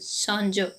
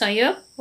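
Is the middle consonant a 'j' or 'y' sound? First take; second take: j; y. First: The middle consonant is a 'j' sound. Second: The middle consonant is a 'y' sound. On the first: "Odia उच्चारण" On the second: "Hindi उच्चारण"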